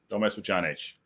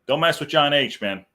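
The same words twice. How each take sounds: First: Quieter aside, dropping to himself; muttered repeat. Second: Punchy, louder, stress on mess; emphatic warning. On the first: Host repeating the warning to himself, muttered. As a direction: say "mess" lightly under the breath, half to yourself. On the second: Host warning the chat about crossing John H, emphatic. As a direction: lean hard on "mess" as a playful warning. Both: Real, not acted.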